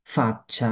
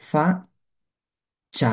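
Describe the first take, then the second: First: Said in the usual way. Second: "ফা, চা" as two syllables with a long pause between. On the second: Shown as a demonstration. Teacher asking learners to notice, syllable by syllable. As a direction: break the word into "ফা" and then "চা". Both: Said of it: "খেয়াল করেন".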